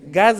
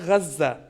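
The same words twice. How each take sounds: First: The word has a plain Portuguese pronunciation. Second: The word has an Arabic pronunciation. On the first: It names the province in Mozambique. "Gaza está aqui em Moçambique" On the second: It names the territory in Palestine. "Aquele que está na Palestina é Gaza"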